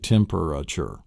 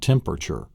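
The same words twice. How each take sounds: First: The word is said with four syllables. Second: The word is said with three syllables. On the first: The speaker calls it right. "but it's actually temperature. So it's actually four syllables" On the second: The speaker calls it wrong. "not three syllables. It's not temperature"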